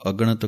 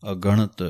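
First: ਅਗਣਤ run together as aganat; the careless ਅਗਣਤ; ਗਲਤ ਅਗਣਤ; common wrong pronunciation. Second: ਅਗਣਤ with the a joined on, clearly a-ganat; ਸ਼ੁੱਧ ਅਗਣਤ; correct pronunciation. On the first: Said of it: "ਬਹੁਤੇ ਇਹਨੂੰ ਅਗਣਤ ਕਹਿ ਜਾਂਦੇ ਹਨ". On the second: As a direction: sound every syllable of ਅਗਣਤ. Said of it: "ਐੜੇ ਨੂੰ ਸੰਬੰਧਕ ਕਰਕੇ ਬੋਲਣਾ ਹੈ". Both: Shown as a demonstration.

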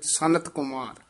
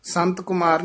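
First: ਸਨਤ said sa-nat, three clear sounds; ਸਨਤ with the ਨ sounded separately; correct reading. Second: ਸੰਤ with a nasal n merged, not sa-nat; ਸੰਤ Kumar read as sant; wrong reading. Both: Shown as a demonstration. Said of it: "ਨਹੀਂ ਨੰਨਾ ਹੈਗਾ ਵਿੱਚ".

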